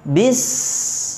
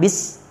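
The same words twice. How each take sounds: First: The s is a long, flowing hiss of breath. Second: The s is cut off very short. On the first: The speaker calls it right. "penyebutan sinnya harus mengalir, ada di sis hembusan nafasnya" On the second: The speaker calls it wrong. "Jangan bis, jangan terlalu sedikit"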